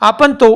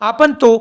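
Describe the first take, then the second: Both takes have the same delivery.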